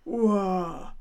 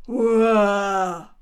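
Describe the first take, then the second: First: Louder, falling hurra; a proud, moderate hurra; hearty cheer. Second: A huge ringing shout of hurra; a crowd bursting into hurra; loud cheer from outside. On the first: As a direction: cheer as you make your entrance. Lion bursts in cheering. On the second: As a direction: cheer it out at full voice. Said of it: "machte es draußen". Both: Acted.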